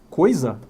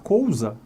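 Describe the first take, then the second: First: The first syllable is said with 'oi'. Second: The first syllable is said with 'ou'. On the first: This is the usual modern form. "Eu posso falar coisa" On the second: This is an older form that is still accepted. "É uma forma mais arcaica"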